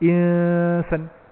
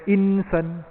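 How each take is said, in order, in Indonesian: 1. Bunyi n tersembunyi dan tidak jelas, bersengau. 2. Bunyi n diucapkan penuh dan jelas. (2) "bukan insan"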